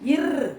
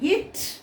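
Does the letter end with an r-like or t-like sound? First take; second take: r-like; t-like. First: The letter ends with a soft r-like sound. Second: The letter ends with a sharp t-like stop. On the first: The speaker calls it wrong. "அதை இர் அப்படின்னு சொல்லக்கூடாது" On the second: The speaker calls it right. "இட் அப்படி சொல்லணும்"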